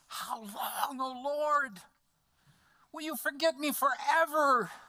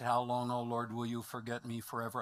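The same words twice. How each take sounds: First: It is said with anguish and strong emotion. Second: It is said calmly, without strong emotion. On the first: The speaker calls it right. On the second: The speaker calls it wrong.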